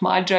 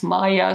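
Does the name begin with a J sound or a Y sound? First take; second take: J sound; Y sound. First: The name begins with an English J sound. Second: The name begins with a Y sound. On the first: The speaker calls it wrong. "it's not Maja" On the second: The speaker calls it right. "pronounce J as Y, like in my name"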